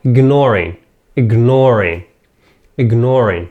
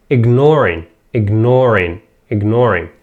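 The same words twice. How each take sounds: The two takes are said the same way.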